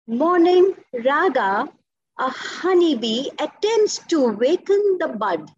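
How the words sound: It is said in one continuous breath.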